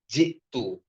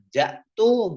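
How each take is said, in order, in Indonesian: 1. Huruf vokal pertama adalah bunyi i. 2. Huruf vokal pertama adalah bunyi a. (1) "tapi ji'tu" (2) "bukan ja'tu"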